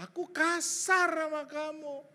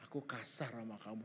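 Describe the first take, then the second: First: Loud, high, slow "Aku kasar sama kamu"; hammed-up, pitched-up apology; emphatic confession. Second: Low, soft "Aku kasar sama kamu"; hushed apologetic re-enactment; retold confession. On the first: Shown as a demonstration. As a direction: proclaim the admission with stretched words. Exaggerated repeat of the apology. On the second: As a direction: admit it humbly, under the voice. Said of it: "saya ngomong gini".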